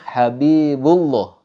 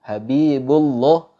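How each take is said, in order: Both takes have the same delivery.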